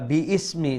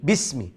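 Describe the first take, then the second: First: Bi and ismi are said as separate parts. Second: Bi is joined directly to the s sound. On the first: The speaker calls it wrong. "পরের শব্দটা বি ইসমি নয়" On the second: The speaker calls it right. "বাকে সিনের সাথে সরাসরি লাগিয়ে পড়বেন"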